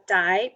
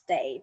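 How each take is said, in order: First: The name sounds like the English word 'die'. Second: The name sounds like the English word 'day'. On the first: It sounds related to death. "some kind of relate to death" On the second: It is the Taiwanese form of the name. "Day is like the Taiwanese pronunciation of my last name"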